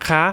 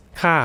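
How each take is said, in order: First: คะ rising high as if asking; wrong high tone. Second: ค่ะ starting high and falling; correct falling tone. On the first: Teacher showing what not to say, high rising tone on คะ. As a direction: lift คะ at the end. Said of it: "so it's not". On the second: Teacher correcting the woman's particle, falling tone on ค่ะ. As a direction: let ค่ะ drop to end the statement. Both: Shown as a demonstration.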